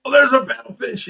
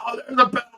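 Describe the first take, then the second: First: High, louder thrilled cry; excited. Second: High, thrilled spotting cry; excited. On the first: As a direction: call out the fish with delight. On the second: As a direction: squeal at the fish surfacing. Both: Retold or imitated. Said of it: "you're so excited".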